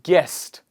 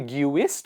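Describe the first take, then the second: First: The U is not pronounced. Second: The U is pronounced. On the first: The speaker calls it right. "silent U" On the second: The speaker calls it wrong. "Do we say guist or guest?"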